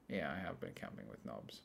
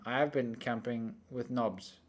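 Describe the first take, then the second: First: Much softer, lower repeat of the admission; muttered aside. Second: Said in the usual way. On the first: Real, not acted. Confirming to a friend he camped with knobs, muttered low. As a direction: mutter it again under the breath. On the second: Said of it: "I was gonna say".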